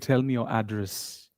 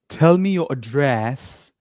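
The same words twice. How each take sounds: First: The stress is on the first syllable. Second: The stress is on the second syllable. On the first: The speaker calls it right. "We say, ... You always stress the first part of the word" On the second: The speaker calls it wrong. "We don't say"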